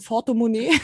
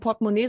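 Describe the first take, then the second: First: The word begins with an F sound. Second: The word begins with a P sound. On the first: "sondern ein Fortemonnaie" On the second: "Dann ist es kein Portemonnaie"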